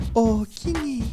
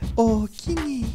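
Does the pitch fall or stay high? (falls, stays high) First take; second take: stays high; stays high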